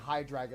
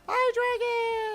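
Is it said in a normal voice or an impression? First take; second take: normal; impression. First: It is said in his own normal voice. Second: It is said imitating Iris from the anime.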